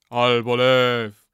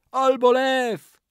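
First: Slow, loud, booming echo; chorus response. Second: Very high, slow, loud wail; ritual curse. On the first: Warriors echo the old man's curse, booming chant. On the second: Old man calls a lion on betrayer, high wail. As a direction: wail the incantation. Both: A narrator's reading.

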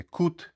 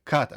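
First: «cut» as «kut» with a U; wrong U. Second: «cut» as «kat» with an open A. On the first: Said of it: "а не cut". («cut» з «У», неправильно) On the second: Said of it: "прочитаєте як cut". («cut» з відкритим «А») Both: Shown as a demonstration.

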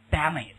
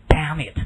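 First: Said in the usual way. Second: Firm demo. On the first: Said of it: "懂吗". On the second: Shown as a demonstration. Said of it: "什么".

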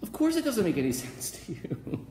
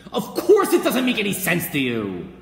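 First: Amused exasperation. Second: Loud, high, incredulous outburst; exasperated shout. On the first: Preacher repeating the retort to the doubter, amused exasperation. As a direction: retort breaking into a laugh. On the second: Preacher answering a doubter who finds no sense, exasperated shout. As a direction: explode at the objection. Shouts back at imagined objector. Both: Acted.

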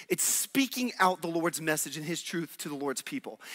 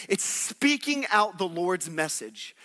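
First: Said in the usual way. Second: "speaking out the Lord's message" slow, leaning on "speaking"; emphatic, slowed. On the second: Shown as a demonstration. Preacher stressing a definition for the congregation, slow and weighty. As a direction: spell it out word by word. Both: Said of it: "see the verbiage here".

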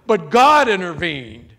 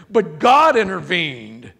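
No difference in how they are said.

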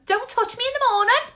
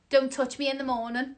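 First: High, very fast exclamation; rapid, high-pitched eureka; excited realisation. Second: Said in the usual way. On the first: Real, not acted. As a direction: squeal out the answer. Realises she has it.

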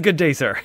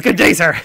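First: Meme voice. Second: Loud indignant "Good day, sir". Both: Retold or imitated. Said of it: "I said".

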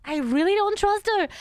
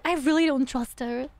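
First: Louder insistent repeat. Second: Said in the usual way. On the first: Shown as a demonstration. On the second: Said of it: "repeat said louder".

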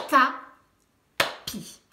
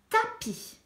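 First: « Tapis » découpé en ta-pis, plus fort, syllabes frappées; « Tapis » scandé ta-pis pour que l'enfant compte; syllabes détachées. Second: Said in the usual way. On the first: Shown as a demonstration. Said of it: "on frappe dans ses mains". (« Tapis » martelé syllabe par syllabe, en frappant dans les mains) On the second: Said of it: "C'est un".

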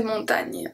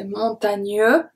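First: Montagne ending on gne, E silent; right way. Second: Montagne with a final E sound after the gne; slow montagne with the E voiced at the end; wrong way. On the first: Teacher to learners, correct form: silent final E. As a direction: say montagne softly, stopping on the gne. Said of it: "I say montagne". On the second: Teacher showing the mistake: final E pronounced. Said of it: "I don't say montagne". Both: Shown as a demonstration.

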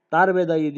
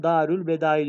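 First: "Dar ve dayı" said loudly as three words, dar and dayı split apart; loudly mock-reading "Dar ve dayı" as a joke; misreading as dar ve dayı. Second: "Darül Bedai" said as one name, darül joined to bedai; clearly correcting to "Darül Bedai". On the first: Teacher jokingly misreads the sign loudly. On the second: Teacher gives the class the right name, plainly. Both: Shown as a demonstration. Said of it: "Bakın Darül Bedai diyor".

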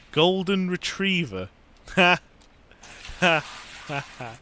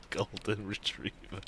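First: Higher, louder, drawn-out delight; amused exclamation. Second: Soft, slow, low savouring; chuckling repeat. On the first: Player spotting a dog joke in the game, delighted. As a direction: call out GOLDEN RETRIEVER slowly and high. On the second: Player relishing the dog joke, quietly amused. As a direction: murmur GOLDEN RETRIEVER through leftover chuckles. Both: Real, not acted.

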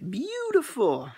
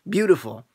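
First: High and stretched out slowly; movie line impression. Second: Said in the usual way. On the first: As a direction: float it up high, drawn out like the movie. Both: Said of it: "like in Lethal Weapon four".

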